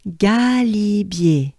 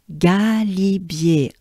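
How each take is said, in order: First: "Galibier" even slower, on a full breath; very slow repeat. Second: "Galibier" drawn out slowly, in French; slow French model. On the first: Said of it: "take a good breath with me". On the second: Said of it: "Encore again". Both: Shown as a demonstration.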